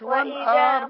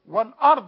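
First: The vowel after the hamza is drawn out long. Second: The vowel after the hamza is kept short. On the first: The speaker calls it wrong. "مش والأرض" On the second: The speaker calls it right. "والأرض على طول"

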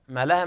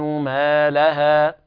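First: The first vowel is tilted toward e. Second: The first vowel is a full open a. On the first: The speaker calls it wrong. "بعض الناس يقرأها ما لها ما لها ما لها من الميل أو الإمالة" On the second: The speaker calls it right. "الصواب إثبات ذات المد في الميم ... هكذا"

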